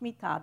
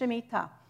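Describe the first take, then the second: First: The middle syllable is dropped. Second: All three syllables are pronounced. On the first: "They just forget the middle syllable" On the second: "It's Shemitah"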